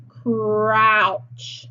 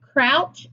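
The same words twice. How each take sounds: First: "Crouch" stretched sound by sound in one glide; slow, blended "Crouch" for a phonics class; word on a curve. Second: Said in the usual way. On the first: Shown as a demonstration. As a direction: draw out every sound of "Crouch", long rolling r. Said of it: "Crouch is the word on the curve". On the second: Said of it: "is the word on the curve".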